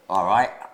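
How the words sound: It is said in an Australian accent. "With an Australian accent"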